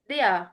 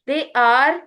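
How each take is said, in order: First: 'They are' is contracted to one syllable. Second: 'They are' is said as two full words. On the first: "दे आर की बजाय दे आर" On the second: "की बजाय"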